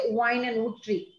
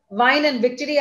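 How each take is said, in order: First: The words begin with a rounded-lip W sound. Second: The words begin with a lip-biting V sound. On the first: The speaker calls it wrong. "I'm going to put my lips round and say" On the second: The speaker calls it right. "I'll take an example from here"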